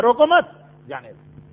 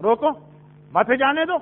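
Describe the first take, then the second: First: Breath taken after مت, جانے دو sinking; pause after مت. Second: روکو alone, a break, then مت جانے دو together; pause after روکو. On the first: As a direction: say روکو مت as one, then drop away on جانے دو. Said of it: "ہماری سانس کہاں ٹوٹی". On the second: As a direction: stop right after روکو, keep مت with جانے دو. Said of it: "کے بعد رکے ہیں". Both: Shown as a demonstration.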